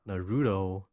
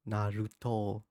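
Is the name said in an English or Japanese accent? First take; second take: English; Japanese. First: The name is said in an English accent. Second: The name is said in a Japanese accent. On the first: "like people say" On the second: "perfect Japanese accent"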